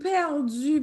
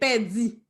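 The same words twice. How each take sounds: First: The final vowel is a rounded French u. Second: The final vowel is a plain unrounded i. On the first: It is a Frenchified pronunciation. The speaker calls it wrong. "des gens disent, ah, oh, perdu, bagay ça" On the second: It is the proper Creole pronunciation. The speaker calls it right. "Mais non, c'est perdu"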